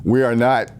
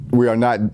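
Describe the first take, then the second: No difference in how they are said.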